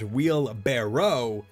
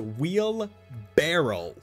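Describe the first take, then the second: First: The word ends with a 'barrow' sound. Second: The word ends with a 'barrel' sound. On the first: The speaker calls it right. "wheelbarrow is the is the correct word" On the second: The speaker calls it wrong. "says wheel barrel. Like a barrel"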